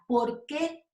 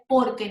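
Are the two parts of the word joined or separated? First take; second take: separated; joined. First: The two parts are said separately. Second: The two parts are run together. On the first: It asks a question. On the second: It gives an answer.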